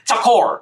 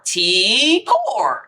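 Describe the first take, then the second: First: The first syllable has a short, weak vowel. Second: The first syllable is a clear 'tee' sound. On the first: This is how others say the name. The speaker calls it wrong. "I'm tired of people saying Takor" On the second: This is the name's real pronunciation. The speaker calls it right. "Her name is T-Core"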